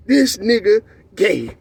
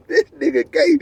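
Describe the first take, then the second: First: Drawn out slowly, each word dropped flat; slow deadpan reveal. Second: Pitched up with a rising finish; giddy repeat. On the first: Telling friends the tough guy's secret, slow deadpan. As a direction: let the punchline land slow and dry. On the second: Repeating the punchline to friends, higher and giggly. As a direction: say it again, higher and amused. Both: Shown as a demonstration.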